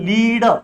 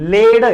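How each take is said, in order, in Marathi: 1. हा स्वर दीर्घ आहे, 'bead' सारखा. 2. हा स्वर लहान आहे, 'bed' सारखा. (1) "याचं होतं लीड" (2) "उच्चार वेगळा आहे"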